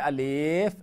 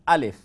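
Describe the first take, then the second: First: The 'l' sound is dragged out long. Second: The 'l' sound is short and quick. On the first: The speaker calls it wrong. "Don't say Alif. Don't drag the lam" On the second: The speaker calls it right. "It's just Alif"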